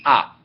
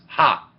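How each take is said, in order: First: The vowel starts with no h sound. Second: The vowel starts with a breathy h sound. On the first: "it's a silent. It just means ah" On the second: "If you put a little breathing mark above it, a C, it becomes ha"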